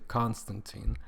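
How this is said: It is said the American way.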